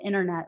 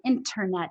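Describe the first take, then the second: First: The T is said as a soft, quick tap. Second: The T is said as a crisp, sharp stop. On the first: "like I do, the tapped T that I like to do from America" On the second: "having nice crisp T's"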